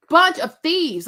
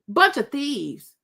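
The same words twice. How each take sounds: First: Repeated insult, louder and higher; louder outrage. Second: Slow, drawn-out disgusted verdict. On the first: Calling the guests thieves again, louder and higher. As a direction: punch it out indignantly. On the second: Slowly condemning the guests as thieves. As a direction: let the insult drag out slowly. Repeats insult about the guests. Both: Real, not acted.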